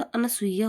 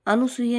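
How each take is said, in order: First: Said in the usual way. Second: अनुसुया with 'nu' for 'na'; mispronounced अनुसुया. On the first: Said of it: "अनसुईया होता है". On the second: Shown as a demonstration. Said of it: "अनुसुया नहीं होता". (अनुसुया में 'नु' बोलें)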